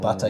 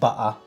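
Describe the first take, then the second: First: The middle t is pronounced clearly. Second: The middle t is replaced by a glottal stop. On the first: "instead of" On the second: "lack of uh, T or glottal stop, like butter"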